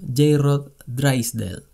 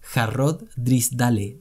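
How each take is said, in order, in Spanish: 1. El nombre se dice con acento inglés. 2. El nombre se dice con acento español. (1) "Supongo que así se pronuncia" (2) "Te lo voy a leer en español"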